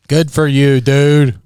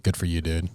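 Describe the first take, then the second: First: Louder, higher repeat; loud emphatic. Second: Quiet aside. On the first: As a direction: say it again with gusto. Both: Real, not acted.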